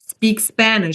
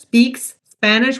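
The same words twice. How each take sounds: First: The words are linked with one lengthened S. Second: The words are separated, each S said apart. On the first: The speaker calls it right. "we say" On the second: The speaker calls it wrong. "instead of separating"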